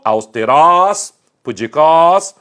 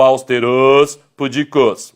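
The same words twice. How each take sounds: First: "austerós, pudicós" loud with open, stressed final ós; long open o ending "austerós, pudicós"; wrong final stress. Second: "austerôs, pudicos" stressed on closed final ôs; long closed o on the last syllable of "austerôs, pudicos"; wrong closed final stress. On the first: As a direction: hit the last syllable of "austerós" and "pudicós". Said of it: "Se fossem oxítonas, teria acento". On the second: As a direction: say aus-te-RÔS, pu-di-CÔS. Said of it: "não é assim que se pronuncia". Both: Shown as a demonstration.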